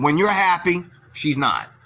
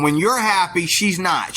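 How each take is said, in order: First: Said in the usual way. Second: "When you're happy, she's not" repeated with weight on "you're" and "she's"; restated with emphasis. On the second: Shown as a demonstration. Vlogger repeating his point to viewers with stress on "you're" and "she's". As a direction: say it again and lean on "you're" and "she's". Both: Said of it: "let me say that again".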